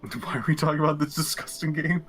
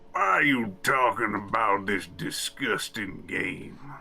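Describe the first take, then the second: First: It is said in the speaker's ordinary voice. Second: It is said in a put-on Texan oil-baron voice.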